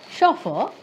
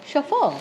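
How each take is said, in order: First: "chauffeur" stressed at the start, SHO-fer; stress on first syllable. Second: "chauffeur" stressed at the end, sho-FUR; stress on second syllable. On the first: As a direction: hit SHO high in "chauffeur". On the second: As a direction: say "chauffeur" slowly, hitting FUR. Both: Shown as a demonstration. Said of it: "multiple pronunciations".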